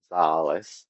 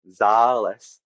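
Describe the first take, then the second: First: "zāles" with the long a going down in pitch; falling tone. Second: "zāles" held long on a steady, louder tone. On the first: Host showing Latvian for concert halls, falling tone. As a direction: let "zāles" drop lower on the long a. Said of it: "it goes down in pitch". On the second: Host showing Latvian for medicine, steady tone. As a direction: sustain the long a of "zāles" evenly. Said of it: "has a steady tone". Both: Shown as a demonstration.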